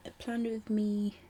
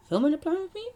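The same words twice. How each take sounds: First: Said in the usual way. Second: Emphatic correction. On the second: Real, not acted. Self-correction, emphatic second take.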